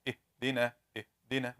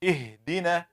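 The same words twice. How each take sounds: First: اهدنا with no breath on the ha; without hams. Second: اهدنا with a little air released on the ha; with hams. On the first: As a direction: say اهدنا with no air on the ha, quietly. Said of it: "how to say it without hams". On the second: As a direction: breathe lightly through the ha of اهدنا. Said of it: "You should release some air". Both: Shown as a demonstration.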